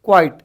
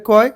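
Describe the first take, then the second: First: Said in the usual way. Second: "क्वाइट" broken as kwai, then a separate tuh; split into syllables. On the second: Shown as a demonstration. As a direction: say "क्वाइट" in two detached beats. ("क्वाइट" दो हिस्सों में तोड़कर) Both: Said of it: "कितने हो रहे हैं यहाँ पे".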